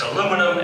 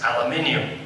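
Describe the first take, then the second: First: It is said with four syllables, ending in -num. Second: It is said with five syllables, ending in -nium. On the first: This is the American form. The speaker calls it wrong. "in America, it's aluminum" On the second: This is the form used outside America. The speaker calls it right. "everywhere else, it's aluminium"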